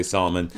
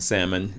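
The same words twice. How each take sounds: First: "salmon" as SAHL-uh-mun; "salmon" with an AH and an audible L; preferred salmon. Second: "Salmon" as SAM-un, low and soft; "Salmon" pronounced SAM-un; accepted salmon. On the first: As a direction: say "salmon" with the L sounded. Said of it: "I wanna say salmon". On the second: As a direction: say "Salmon" with a silent L. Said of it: "even though I wanna say salmon". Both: Shown as a demonstration.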